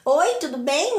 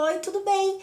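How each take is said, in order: First: It is said in a mocking, jealous way. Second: It is said in a friendly, polite way.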